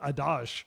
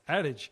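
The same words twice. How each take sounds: First: The word is pronounced like a French word. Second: The word is pronounced like a plain English word. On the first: The speaker calls it wrong. "I thought it was like like a, a French word or something. So I said adage" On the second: The speaker calls it right. ""It's adage.""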